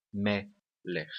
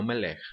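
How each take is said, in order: First: Melech with the accent on "me"; stress on first syllable. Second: Melech with the accent moved onto "lech"; wrongly stressed last syllable. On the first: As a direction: say melech in two separated syllables, leaning on the first. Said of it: "A tonicidade da palavra melech está na primeira sílaba". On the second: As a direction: say melech leaning on the final syllable. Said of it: "E não melech". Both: Shown as a demonstration.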